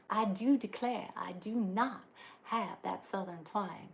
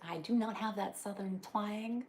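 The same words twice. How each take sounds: First: Slow, hammed-up Southern drawl on I do declare; playful put-on Southern belle accent; mock Southern twang. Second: Said in the usual way. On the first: Joking to viewers that she lacks the accent, mock Southern accent.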